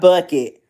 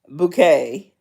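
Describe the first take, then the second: First: The name sounds like the word bucket. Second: The name sounds like the word bouquet. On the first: The speaker calls it wrong. "Not Bucket" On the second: The speaker calls it right. "she pronounces it bouquet"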